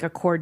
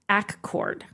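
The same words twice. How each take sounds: First: It is pronounced like the car name. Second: It is pronounced differently from the car name. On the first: The speaker calls it wrong. "you don't say it like Accord, New York" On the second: The speaker calls it right. "You say Accord"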